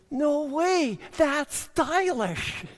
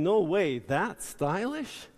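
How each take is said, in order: First: It is said in an impressed, admiring tone. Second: It is said in a dismayed, sarcastic tone. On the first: The work was done well. "she says" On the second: The work was done badly. "instead of saying"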